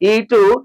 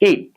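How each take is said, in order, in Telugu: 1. చివరి హల్లు తర్వాత ఒక అదనపు అచ్చు కలుపుతారు. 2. పదం చివరి హల్లుతోనే స్పష్టంగా ముగుస్తుంది. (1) "దీర్ఘాలను ఇంగ్లీష్ పదాలకు కలపకూడదు" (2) "ప్రొనౌన్సియేషన్ ఎలా చేయాలంటే"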